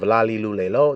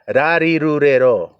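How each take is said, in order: First: Each syllable starts with an L sound. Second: Each syllable starts with an R sound. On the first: "Instead of lalilulelo" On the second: "they have to say ra"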